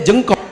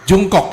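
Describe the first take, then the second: First: The first vowel sounds like 'e'. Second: The first vowel sounds like 'u'. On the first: The speaker calls it wrong. "saya pikir dibacanya Jengkok" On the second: The speaker calls it right.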